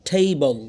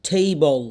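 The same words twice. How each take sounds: No difference in how they are said.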